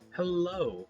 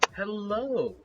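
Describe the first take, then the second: First: It is said more quietly. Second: It is said very loudly.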